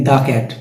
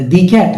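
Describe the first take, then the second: First: দা cat with দা as open "daa"; "thuh" before consonant. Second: দি cat with দি as "dee"; "thee" alternative. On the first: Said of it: "vowel এবং কনসোনেন্টের নিয়ম". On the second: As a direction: rhyme দি with see before cat. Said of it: "vowel থাকে তাহলে আমি দি". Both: Shown as a demonstration.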